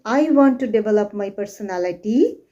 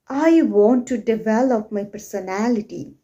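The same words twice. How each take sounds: First: Quick, run-together sentence without emphasis on "develop"; no stress. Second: Deliberate pace, "develop" stressed on its middle syllable; with word stress. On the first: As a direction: rattle it off, stressing nothing. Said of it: "So instead of saying". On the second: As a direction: lean on the "vel" in "develop". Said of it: "we can say". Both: Shown as a demonstration.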